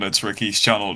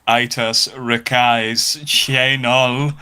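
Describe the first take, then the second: First: The name is pronounced in the ordinary way. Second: The name is pronounced with silly, distorted vowels.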